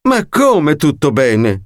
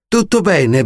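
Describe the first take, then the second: First: Slow, incredulous outrage; indignant. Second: Said in the usual way. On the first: A narrator's reading. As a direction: drag it out in disbelief. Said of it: "strillò quella". (indignata e incredula)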